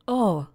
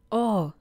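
Both takes have the same delivery.

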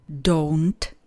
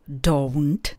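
The two takes are said the same way.

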